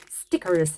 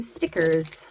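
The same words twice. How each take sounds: First: Stickers with a Canadian r, stick-urrz; light Canadian take on stickers; Canadian accent. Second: Said in the usual way. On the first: Shown as a demonstration. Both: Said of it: "I said that like a Canadian".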